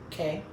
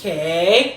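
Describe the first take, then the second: First: The word is said briefly and normally. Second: The word is stretched out long.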